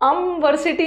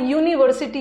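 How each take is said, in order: First: The word begins with a short 'uh' vowel. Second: The word begins with a 'yoo' sound. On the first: The speaker calls it wrong. "अम अमवर्सिटी नहीं आ रहा" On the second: The speaker calls it right. "यहाँ यू का pronunciation य है"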